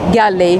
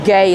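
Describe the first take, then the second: First: The name is said the local, non-English way. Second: The name is said the English way.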